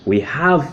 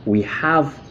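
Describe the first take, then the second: No difference in how they are said.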